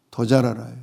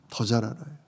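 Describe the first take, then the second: First: Said in the usual way. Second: Soft echo. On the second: Shown as a demonstration. Preacher echoing to the congregation, much softer. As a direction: repeat 더 잘 알아요 much softer, almost to yourself. Repeats line, second time softly.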